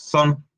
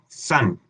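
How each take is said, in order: First: The vowel sounds like a Spanish o. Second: The vowel sounds between Spanish a and o. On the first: The speaker calls it wrong. "ni decimos son" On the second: The speaker calls it right. "Es entre, entre una A y una O"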